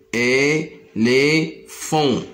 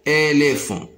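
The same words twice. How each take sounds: First: "éléphant" slowly split into é, lé, phant; slow sounding-out of "éléphant" for learners; syllable by syllable. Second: Said in the usual way. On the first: Shown as a demonstration. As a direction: pause between the three syllables of "éléphant". Teacher splits word into syllables.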